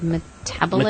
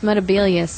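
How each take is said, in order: First: The third syllable is said 'bo'. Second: The third syllable is said 'be'. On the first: The speaker calls it wrong. "he said Metabolus" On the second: The speaker calls it right. "it's Metabelius"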